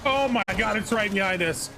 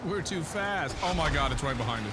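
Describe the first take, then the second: First: High alarmed voice; alarmed, something is right behind; being chased. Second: High, loud alarmed voice; panicking, it's right behind us; being chased. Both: Real, not acted. Monster right behind them.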